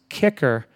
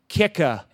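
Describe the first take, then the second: First: The name ends with an audible R sound. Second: The name ends in a vowel with no R. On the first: The lawyer mispronounced the client's name. The speaker calls it wrong. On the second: The lawyer said the client's name properly. The speaker calls it right.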